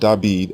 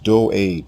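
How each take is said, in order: First: The name is said as David. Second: The name is said as Do'ed. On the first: The speaker calls it wrong. "The king's name is not David" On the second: The speaker calls it right. "His name is pronounced Do'ed"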